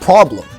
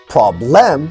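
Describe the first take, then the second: First: The unstressed vowel is reduced to uh. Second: The unstressed vowel keeps its full quality. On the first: The speaker calls it right. "we say" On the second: The speaker calls it wrong. "we don't say"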